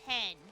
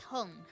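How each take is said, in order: First: The vowel sounds like the e in 'hen'. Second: The vowel sounds like the u in 'hun'. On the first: The speaker calls it wrong. "but I always say hen" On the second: The speaker calls it right. "It's Hun"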